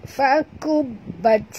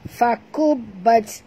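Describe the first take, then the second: First: Fakubat, slowly, ending ta breathed out; breathy final ta. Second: Fakubat, slowly, ba pressed hard; stressed ba with shadda. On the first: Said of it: "kena bunyikan hamasnya". (bunyikan hams pada ta Fakubat) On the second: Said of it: "kena jud atau kena tekan". (tekan huruf ba dalam Fakubat) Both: Shown as a demonstration.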